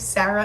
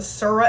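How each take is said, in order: First: The name starts with the usual 'Sair' sound. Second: The name starts with an altered 'Soo' sound.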